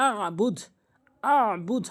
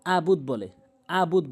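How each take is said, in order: First: "আবুদ" with held throat ayn after a; correct ayn. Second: "আবুদ" with a simple open a; wrong pronunciation. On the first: Teacher giving the correction, "আবুদ" with throat ayn. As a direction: squeeze mid-throat in "আবুদ". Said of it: "আইনের উচ্চারণ আনতে হবে". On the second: Teacher showing the common slip, "আবুদ" without ayn. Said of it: "বলতে হবে". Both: Shown as a demonstration.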